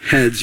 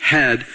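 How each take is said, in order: First: "Heads." said plural with a clear final s; "Heads." with the s added on the end; corrected word. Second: "Head." said as singular head, no final s; "Head." ending without the s sound; wrong word. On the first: Preacher echoing the congregation's correction, "Heads." with a clear final s. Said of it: "You got it right". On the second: Preacher misquoting the verse to the congregation, saying "Head." without the s. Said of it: "I got it wrong". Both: Real, not acted.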